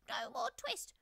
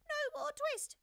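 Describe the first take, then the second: First: Very high, loud squeaky shout; twittering mouse shout. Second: Very high, louder squeaky shout; a second, shriller defiant cry; twittering mouse shout, again higher. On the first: Mice shouting at Simpkin all at once, high and loud. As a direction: shout it like tiny defiant mice. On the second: Mice shouting at Simpkin, higher and louder. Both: A narrator's reading. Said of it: "shout at once in little twittering voices".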